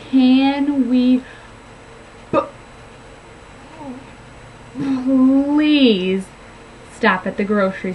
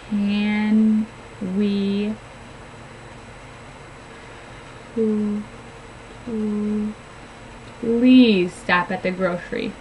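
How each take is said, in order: First: The P sound is stuttered with heavy tension. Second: The P sound is made with light contact. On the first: The speaker calls it wrong. "Here's the stuttered sound, You can see there was a lot of tension there" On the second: The speaker calls it right. "with that light contact when we're saying that P sound"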